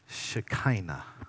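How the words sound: The word has an anglicized English pronunciation. "To clean it up in English so we can all understand"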